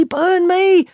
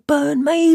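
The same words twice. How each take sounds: First: Much higher, louder shout, peak of alarm; louder alarmed cry. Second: Much higher rising shout of alarm; alarmed cry. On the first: Tom shouting from the loft as Matt faces knives, at full alarm. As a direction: top the first one, full alarm. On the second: Tom shouting from the loft as Matt faces knives. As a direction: call out, alarm building. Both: Acted.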